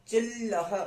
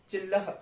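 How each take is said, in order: First: "चिल्लह" with a long drawn l; held il sound. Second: Said in the usual way. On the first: Shown as a demonstration. Teacher showing the half la, "चिल्लह" with l stretched. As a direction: linger on chil in "चिल्लह", then add laha. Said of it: "अब की बार इल आया".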